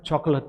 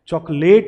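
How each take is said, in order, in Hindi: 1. आखिरी अक्षर हल्की 'uht' ध्वनि पर खत्म होता है। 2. आखिरी अक्षर 'ate' की ध्वनि पर खत्म होता है। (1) "अट साउंड जो है वो बोला जाता है" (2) "चॉकलेट नहीं बोला जाता"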